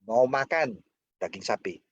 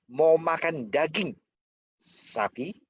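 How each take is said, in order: First: A pause comes right after the second word. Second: A pause comes right before the last word. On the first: Asking whether the listener wants to eat it or do something else. "Mau makan atau enggak?" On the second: The cow itself is being asked. "Sapi yang ditanya"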